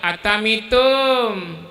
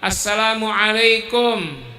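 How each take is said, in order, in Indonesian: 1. Salam itu diucapkan cadel menjadi beberapa bunyi seperti anak kecil. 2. Setiap bunyi salam itu diucapkan dengan jelas. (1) "Tahu-tahu anak-anak atamitum" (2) "Kayak kita ngajarin anak-anak"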